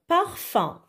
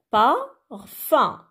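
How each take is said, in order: First: Said in the usual way. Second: "parfum" slowly broken into par, then fum; split into syllables. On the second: Shown as a demonstration. Children count syllables on fingers, "parfum" split in two slow beats. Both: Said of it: "comptez les syllabes en disant le mot".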